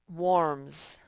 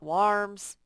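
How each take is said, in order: First: The vowel does not sound like 'car'. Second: The vowel sounds like the one in 'car'. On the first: The speaker calls it right. "just warms. It's just the way we say it" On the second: The speaker calls it wrong. "that A R is not following the rule. It's not warms"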